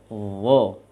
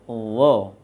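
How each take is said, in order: The two takes are said the same way.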